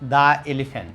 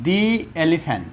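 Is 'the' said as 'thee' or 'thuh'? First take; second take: thuh; thee. First: 'The' is said with a short 'uh' vowel. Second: 'The' is said with a long 'ee' vowel. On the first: The speaker calls it wrong. "Not দ্য elephant" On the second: The speaker calls it right. "উচ্চারণ করতে হবে দি elephant"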